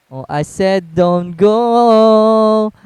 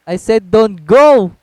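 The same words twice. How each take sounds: First: Very slow, dragged out "go"; drawn out. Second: Said in the usual way. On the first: Real, not acted. Repeating the warning to a teammate, dragged out very slowly. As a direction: stretch every word out.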